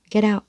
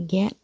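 First: "get out" as geddout; linked D sound. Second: "get" alone with its final t sounded; separate word. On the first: Teacher showing learners linking, "get out" as geddout. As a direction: soften the t of "get" to a d and run into "out". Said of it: "biến thành âm đờ trước này, rồi nối sang out". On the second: Teacher isolating the word for learners, "get" with final t. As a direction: say "get" by itself, ending on t. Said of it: "biến thành âm đờ trước này". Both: Shown as a demonstration.

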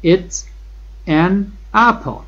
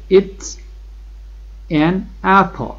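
First: Each word set apart, apple lifted high; slow word-by-word drill. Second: An apple stretched out very slowly; slow model sentence. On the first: Teacher repeats for the class, slow separated words. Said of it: "این یک سیب است". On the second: Teacher models the answer, slow and stretched. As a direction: draw out an apple for the class. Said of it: "شما میگید این یه سیبه". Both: Shown as a demonstration.

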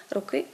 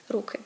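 First: "руки" stressed on the last syllable, ру-КИ. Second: "руки" stressed on the first syllable, РУ-ки. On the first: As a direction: put the weight on КИ in "руки". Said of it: "родовий однини". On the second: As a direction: put the weight on РУ in "руки". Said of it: "множина називний". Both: Shown as a demonstration.

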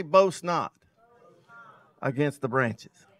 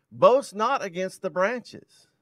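First: "Boast not" punched, "against the branches" dropping away; call for repeat. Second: Slow, drawn-out stress on "boast not against the branches"; slow emphasis. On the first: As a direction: hit "Boast not" then let it fall for the crowd to echo. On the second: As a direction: lean hard on "boast" and drag it slowly. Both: Shown as a demonstration. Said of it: "Somebody say".

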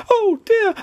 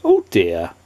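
First: Very high, squeaky wail of dismay; panicked cry. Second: Low-pitched, kindly character voice. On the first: Mister Jelly diving under the table, panicked cry. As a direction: squeal it in alarm. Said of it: "cried Mister Jelly". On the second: Kindly tramp finding Mister Jelly fainted, kindly. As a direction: say it low, with gentle concern. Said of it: "he was a kindly tramp". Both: A narrator's reading.

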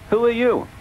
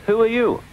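First: Bertie voice. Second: Thomas voice. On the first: Bertie echoes question. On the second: Thomas greets unknown bus. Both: A narrator's reading.

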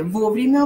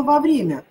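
First: Вовремя stressed on «во»; Вовремя, opening syllable stressed. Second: Во время stressed on «вре»; во время with second syllable stressed. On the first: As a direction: hit the first syllable of Вовремя with a full О. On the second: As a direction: reduce «во» to «ва», hit Е in во время. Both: Shown as a demonstration. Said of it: "О или Е".

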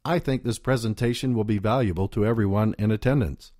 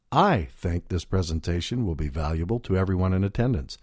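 First: Said in the usual way. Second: The word "I" lifted and leaned on, rest of the sentence even; stress on I. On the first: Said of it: "Consider the various ways in which you can say the following sentence". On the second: Shown as a demonstration. Speaking coach showing audience how stress on "I" makes it personal. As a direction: hit "I" as your own personal opinion. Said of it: "The emphasis means the speaker is going out on a limb".

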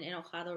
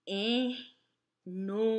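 First: Said in the usual way. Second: "enojado" very slowly, broken into e-no-ja-do; syllable by syllable. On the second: Shown as a demonstration. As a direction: sound out "enojado" with pauses between syllables. ("enojado" sílaba por sílaba, muy despacio) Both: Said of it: "remember that is spelled".

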